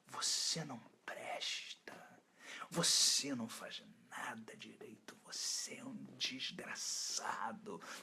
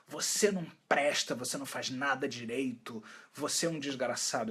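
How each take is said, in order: First: It is said in a soft, sensual voice. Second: It is said in a plain, ordinary voice. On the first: "Imagina uma voz sensual assim" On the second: "uma voz interna que diz assim"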